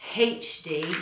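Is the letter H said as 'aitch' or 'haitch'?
haitch. The H is said as 'haitch', British style.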